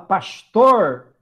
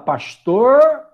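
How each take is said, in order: First: It is said in a southern Brazilian accent. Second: It is said with a strongly curled R. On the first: "Você vai lá no Rio Grande do Sul, fala pastor" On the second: "interior de São Paulo, fala pastor, o R é puxado"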